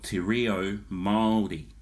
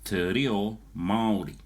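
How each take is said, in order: First: It is said with Māori vowel sounds. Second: It is said with English-style vowel sounds. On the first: The speaker calls it right. "instead of" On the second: The speaker calls it wrong. "So you're going"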